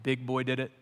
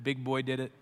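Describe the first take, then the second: No difference in how they are said.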